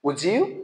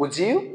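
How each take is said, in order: First: The d and y merge into a j sound. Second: The d and y merge into a j sound.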